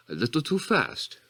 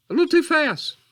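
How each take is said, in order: First: Said in the usual way. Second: Pitched way up and loud; sudden high, loud exclamation; high outburst. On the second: Acted. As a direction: let it jump out high and loud. Repeats it, then apologises and redoes it.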